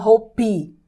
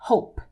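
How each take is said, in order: First: A vowel sound follows the final P. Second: The word ends sharply on the P. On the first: The speaker calls it wrong. "Não hope" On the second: The speaker calls it right. "o som acaba direto no P"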